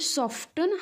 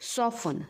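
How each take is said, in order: First: A t sound is pronounced after the f. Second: No t sound is pronounced after the f. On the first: The speaker calls it wrong. "आपण सॉफ्टन हा उच्चार करतो" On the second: The speaker calls it right. "ह्या शब्दाचा उच्चार काय आहे बघा"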